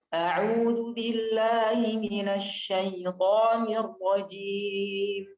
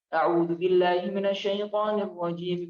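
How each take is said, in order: First: It is recited at a moderate, normal pace. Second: It is recited quickly with shorter stretches. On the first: "Kalau tajwid normal" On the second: "Hadar lebih cepat"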